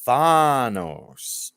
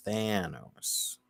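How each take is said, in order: First: Thanos with a flat a, THAN-os. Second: Thanos with a broad a, THAH-nos. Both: Shown as a demonstration. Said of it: "not Thanos".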